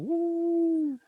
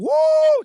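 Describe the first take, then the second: First: It is said quietly with low energy. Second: It is said loudly with high energy.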